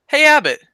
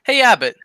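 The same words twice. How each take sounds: First: Hey, Abbott. shouted higher and louder; loud call. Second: A breathy stage whisper of Hey, Abbott. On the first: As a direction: call out to get his attention. Costello repeats the call loudly. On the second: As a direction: hiss it like a secret. Costello sneaking up on Abbott. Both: Acted.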